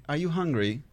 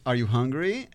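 First: "you" lifted, then "hungry" coming down; British question inflection. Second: "hungry" rising at the end; American question inflection. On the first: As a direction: peak on "you" rather than on "hungry". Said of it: "then British people, they say". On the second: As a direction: ask it American-style, lifting up on "hungry". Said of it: "I heard Americans say". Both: Shown as a demonstration.

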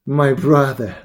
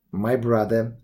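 First: Louder, genial address with a smile; smiling and emphatic; smiling reply. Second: Lower, measured address; understated firmness; firm. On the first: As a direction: say it aloud with a smile to a brother. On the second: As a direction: begin a firm request, evenly. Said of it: "I said firmly". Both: A narrator's reading.

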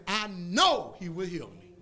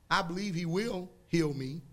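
First: Slow, sure and firm on know; confident faith. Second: Unsure belief, rising at the end; a half-hearted hope; hesitant believer. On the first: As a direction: plant the word know like a fact. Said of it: "That's the difference between saying". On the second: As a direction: say it like a maybe. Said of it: "Y'all don't hear that?". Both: Shown as a demonstration.

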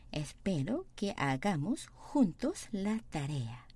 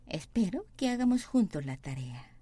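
First: Very slow, even Spanish reading; slow model reading. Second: Slow, careful syllable-by-syllable Spanish; slow model reading. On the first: Teacher repeating slowly for students, deliberate. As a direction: drag each word out for the class. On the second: Teacher reading the sentence slowly for students, deliberate. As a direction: read it slowly for learners to copy. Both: Shown as a demonstration. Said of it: "teacher models sentence slowly".

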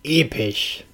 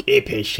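First: Said in the usual way. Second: Etwas kräftiger ausgerufen; Ausruf. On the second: Acted. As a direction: mit mehr Nachdruck ausrufen. (lauterer Ausruf) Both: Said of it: "rief er aus".

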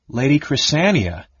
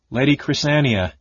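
First: Higher, mildly shocked query; gasped question. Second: Said in the usual way. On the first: A narrator's reading. Wife reacts to news of departure, mild gasp. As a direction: echo the name with a touch of alarm. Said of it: "Tika gasped".

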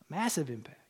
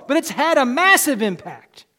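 First: Massive said soft and low; a preacher repeating the point in a near hush; hushed echo. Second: Massive punched out loud; a preacher driving the point home; emphatic. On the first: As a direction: let it sink in quietly. Quiet echo of previous line. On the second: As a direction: declare it boldly. Loud line, then quiet echo. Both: Acted.

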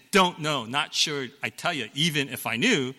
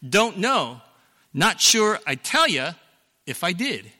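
First: The old misquote in a lightly voiced movie tone; misquoted movie line. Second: Higher, louder scared father delivering the real line; actual movie line. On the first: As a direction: recite the version he had wrong for decades. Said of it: "The quote isn't". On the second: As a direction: give the correct line with a bit more punch. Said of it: "The actual quote is". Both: Shown as a demonstration.

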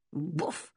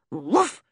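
First: Soft, low scornful woof; a dismissive little bark. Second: Said in the usual way. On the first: Acted. Dog scorning the girl's dithering, soft low scornful woof. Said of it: "said Timmy scornfully".

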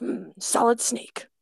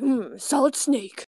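First: Slow, lightly voiced Snake, ends cut off; a hint of Snake, words clipped short; Solid Snake voice. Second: Solid Snake voice. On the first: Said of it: "the ends are, like, a little more cut off". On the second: Retold or imitated. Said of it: "where he's like".

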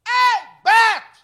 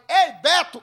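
First: Long high yell across the slope; drawn-out shouted name. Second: Higher, louder repeat of the call; second shouted call. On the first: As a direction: call him out loud from up the hill. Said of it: "eu gritei". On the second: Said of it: "Quando eu falei". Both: Retold or imitated.

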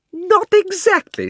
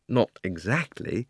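First: Put-on high, loud, outraged girl; indignant shout. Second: Said in the usual way. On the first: Polly shouts at Diggory's hedge, high and outraged. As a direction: repeat his words in disbelief. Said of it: "shouted Polly".

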